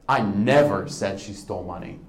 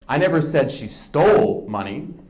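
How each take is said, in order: First: The word 'never' is stressed. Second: The word 'stole' is stressed.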